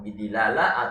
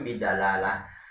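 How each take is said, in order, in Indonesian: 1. Vokal setelah d adalah bunyi i. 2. Vokal setelah d adalah bunyi a. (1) "boleh dibaca dengan kasroh" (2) "huruf dalnya dipatahkan"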